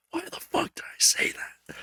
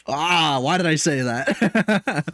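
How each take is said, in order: First: Soft, voiceless whisper to himself; horrified whisper. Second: Slow, drawn-out mock regret; regretful groan. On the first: Retold or imitated. Hearing his own content back, horrified whisper. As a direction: whisper it in mock disbelief at yourself. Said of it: "and I'm just like". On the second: Listening back to himself, regretful groan. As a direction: groan it out in exaggerated self-reproach. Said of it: "and I'm like".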